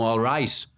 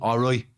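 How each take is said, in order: First: The vowel is a plain 'eye' and the T sounds. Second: The vowel sounds like 'oy' and the T drops. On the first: "o que seria pra mim um alright" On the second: "acaba virando pra eles um alright"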